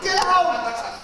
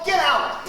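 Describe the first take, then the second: First: A higher, drawn-out angry get out; higher angry shout. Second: A loud, angry get out; angry shout. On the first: Repeating the order with a higher, longer angry shout. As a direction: shout it even harder the second time. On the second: Ordering the intruder out with a loud, angry shout. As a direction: throw him out with a shout. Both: Acted.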